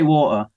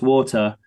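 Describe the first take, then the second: First: It is said in his English accent, t dropped. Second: It is said with the t sounded.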